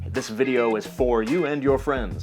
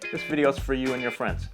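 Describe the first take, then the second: First: The word for has a full vowel. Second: The word for has a reduced vowel. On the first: "instead of saying" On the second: "So some words become reduced. The vowel will change"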